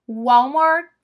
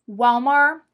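No difference in how they are said.

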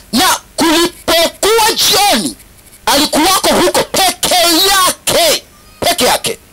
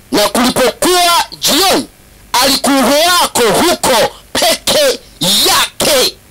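No difference in how they are said.

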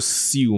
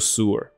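First: The vowel has a 'y' glide, like in few. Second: The vowel is a plain 'oo' without a glide. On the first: The speaker calls it wrong. "E W 这个字，像例如说你读过F E W，这不是念作fuel 吗？ 那这个不应该念作sewer 吗？" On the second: The speaker calls it right. "不是，它念作sewer"

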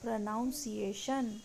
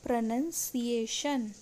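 First: The second syllable sounds like noun. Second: The second syllable sounds like nun. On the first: The speaker calls it wrong. "इसको भी हम गलत pronounce करते हैं" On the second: The speaker calls it right. "इसका सही प्रोनाउंसिएशन है प्रोनंसिएशन"

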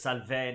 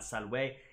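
First: It uses the ecclesiastical Latin pronunciation. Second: It uses the classical Latin pronunciation. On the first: "he says salve" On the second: "not salve"

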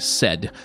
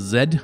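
First: The word begins with a voiceless s sound. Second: The word begins with a voiced z sound. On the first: The speaker calls it wrong. "I'm going to use the unvoiced alveolar fricative, also known as the S sound" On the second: The speaker calls it right. "which is the voiced alveolar fricative"

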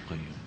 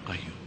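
Both takes have the same delivery.

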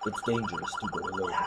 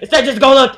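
First: It is said in a calm voice. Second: It is yelled loudly.

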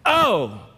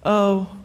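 First: It is said with strong passion. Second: It is said flatly, without feeling.

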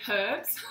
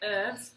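First: The word is said in an Australian way. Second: The word is said in an American way. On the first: "Australians say herbs" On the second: "Americans say herbs"

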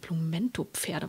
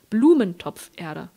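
First: The stress falls on the Pferde part. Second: The stress falls on the Blumentopf part. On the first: It names a breed of horses. The speaker calls it wrong. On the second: It means soil for a flower pot. The speaker calls it right.

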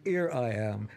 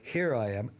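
Both takes have the same delivery.

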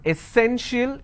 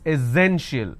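First: The middle consonant is an s sound. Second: The middle consonant is a z sound. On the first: The speaker calls it wrong. "it's not essential, instead of s sound" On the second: The speaker calls it right. "we have a z sound here"

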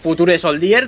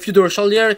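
First: The name is said with Spanish-style pronunciation. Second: The name is said with English-like pronunciation. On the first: This is the familiar everyday way to say it. "Y si no, pues Future Soldier de toda la vida de Dios" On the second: This is offered as the proper way to say it. "Creo que se pronuncia así"

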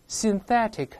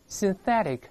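First: The word is said slowly with a clear t. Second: The word is said fast with a softened t.

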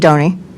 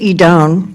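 First: The name is said with an Italian pronunciation. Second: The name is said with a plain English pronunciation.

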